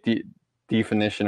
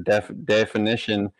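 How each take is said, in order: First: The first syllable is said as 'dee'. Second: The first syllable is said as 'deff'. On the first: "say de definition" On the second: "or def definition"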